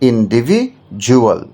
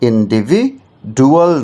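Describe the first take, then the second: First: The consonant before 'ual' is a 'j'. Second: The consonant before 'ual' is a plain 'd'. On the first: The speaker calls it right. "ডি উচ্চারণটা জুয়াল হয়ে যাচ্ছে" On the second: The speaker calls it wrong. "ইন্ডিভিডুয়াল নয়"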